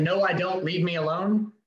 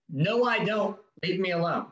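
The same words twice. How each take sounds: First: Forceful refusal. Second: Firm refusal. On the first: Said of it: "In a very forceful, not rude". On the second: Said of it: "My immediate response to those is". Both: Shown as a demonstration.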